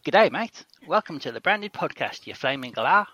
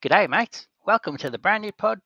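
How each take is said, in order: First: A cheery Australian voiceover greeting; Australian accent. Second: Put-on high, loud Australian accent for an ad; hammed-up Australian greeting. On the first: Acted. Second take of the ad for Australasian listeners, Australian accent. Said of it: "That's actually really good". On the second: Host asks for an ad for Australasian listeners, Australian accent. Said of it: "what have you got to say to our Antipodean".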